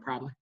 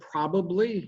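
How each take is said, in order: First: One vowel in the middle is dropped. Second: Every vowel in the word is clearly pronounced. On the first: "people from Ohio have a tendency to go probably and just kind of lose that vowel" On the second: "I have to say it very carefully. When you say probably, you have all the vowels in it"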